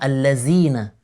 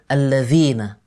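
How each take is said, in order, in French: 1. La consonne du milieu est un son z. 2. La consonne du milieu est un son dh. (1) "change le zal en zay en disant allazine" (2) "au lieu de allazine"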